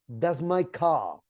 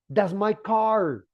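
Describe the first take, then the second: First: The r is dropped and the ah is lengthened. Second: The r at the end of car is pronounced. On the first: "British people say" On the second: "They don't say"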